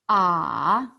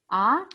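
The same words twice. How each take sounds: First: The pitch dips low and then rises. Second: The pitch rises from mid to high. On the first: "三声, is third tone, thinking sound" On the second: "Second tone, 二声, surprise sound or question sound"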